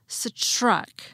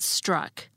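First: The sound after S is a CH. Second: The sound after S is a plain T. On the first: The speaker calls it wrong. "not as struck" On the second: The speaker calls it right. "I pronounce it struck"

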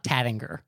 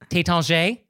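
First: The name is given an English-style pronunciation. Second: The name is given a French-style pronunciation. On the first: The speaker calls it wrong. "it's not Tattinger" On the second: The speaker calls it right. "Tétanger, it's not Tattinger"

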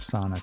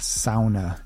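First: The word is said quickly and plainly. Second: The word is drawn out slowly.

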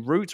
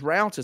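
First: It is said with a British pronunciation. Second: It is said with an American pronunciation.

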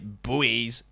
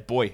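First: It is said the American way. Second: It is said the British way, like 'boy'. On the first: "as you Americans would say, buoys" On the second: "We just say boy"

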